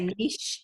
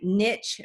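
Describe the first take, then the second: First: It is pronounced the non-Southern way. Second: It is pronounced the Southern way. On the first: The listener is not from the South. "I'm sure you might say niche" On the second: The speaker is from the South. "we're from the South, Glenn, so we would say niche market"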